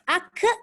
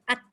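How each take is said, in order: First: The final k releases air together with voice. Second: The final k releases only air, without voice. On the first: The speaker calls it wrong. "salah. Dia lepaskan udara dan suara sekali" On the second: The speaker calls it right. "mana ada suara lepas tu kan? Yang dilepaskan hanya udara"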